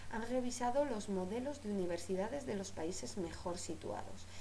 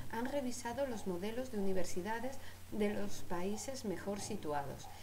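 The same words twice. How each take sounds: Both takes have the same delivery.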